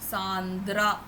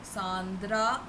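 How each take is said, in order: Both takes have the same delivery.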